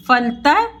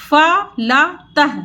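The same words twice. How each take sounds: First: Said in the usual way. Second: फलतः spelled out slowly as फ-ल-तः; slow syllable by syllable. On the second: Shown as a demonstration. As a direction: sound out फलतः one syllable at a time. (फलतः धीरे-धीरे अक्षर तोड़कर)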